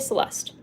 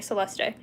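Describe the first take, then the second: First: No extra E vowel is sounded. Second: An extra E vowel is sounded. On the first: This is the speaker's own usual way. "I just say Celeste" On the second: This is how people in some cultures say it. "they pronounce the E"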